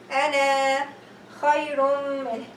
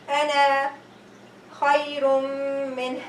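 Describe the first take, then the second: The two takes are said the same way.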